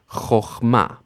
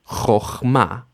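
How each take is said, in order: No difference in how they are said.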